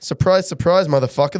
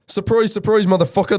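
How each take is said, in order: First: It is read in the speaker's ordinary accent. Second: It is read in an Irish accent. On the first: The speaker calls it wrong. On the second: The speaker calls it right.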